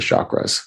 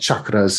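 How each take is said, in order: First: Chakras is said with a Western pronunciation. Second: Chakras is said with an Indian pronunciation. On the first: "but we all say chakras" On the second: "in Indian, I guess"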